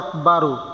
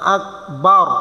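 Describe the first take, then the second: First: The word ends with an added 'u' vowel. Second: The word ends on the consonant 'r'. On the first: The speaker calls it wrong. "অনেকে পড়ে আকবারু, শুদ্ধ হবে না" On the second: The speaker calls it right. "সাকিন করে পড়তে হবে"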